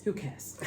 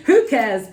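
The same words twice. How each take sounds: First: A sneaky aside, whispered. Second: Louder, punchy and carefree; loud defiant. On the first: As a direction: whisper it, no voice at all. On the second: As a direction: blurt it out boldly. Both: Pretend. Running late, shrugs it off.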